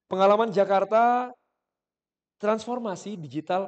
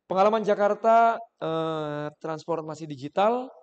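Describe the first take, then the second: First: A silent pause comes after 'Jakarta'. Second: A filler 'eh' sound comes after 'Jakarta'. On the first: The speaker does not seem to be thinking. The speaker calls it right. "Saya kasih jeda di situ" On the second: The speaker seems to be thinking. The speaker calls it wrong. "Kalau misalnya saya kasih jeda em, enak nggak?"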